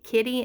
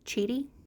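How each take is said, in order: First: The name begins with a k sound. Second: The name begins with a ch sound. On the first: The speaker calls it wrong. "I was just calling it Kitty in my mind" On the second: The speaker calls it right. "The Q is pronounced like a C H sound"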